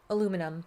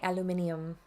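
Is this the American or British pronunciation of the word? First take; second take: American; British. First: It is said the American way, with four syllables. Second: It is said the British way, with five syllables. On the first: "is how us Americans say it" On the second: "like how our friends across the pond say it"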